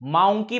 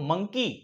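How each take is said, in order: First: The first vowel sounds like 'ow'. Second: The first vowel sounds like 'uh'. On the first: The speaker calls it wrong. "औ. माउंकी म्हणतो का? नाही" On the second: The speaker calls it right. "तर आपण काय म्हणतो?"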